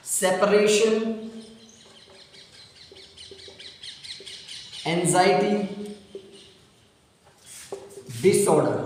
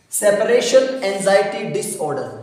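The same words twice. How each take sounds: First: Slow dictation. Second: Said in the usual way. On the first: Shown as a demonstration. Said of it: "teacher dictates term word by word". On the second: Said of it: "teacher repeats term in one go".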